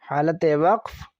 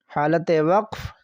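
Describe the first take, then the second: Both takes have the same delivery.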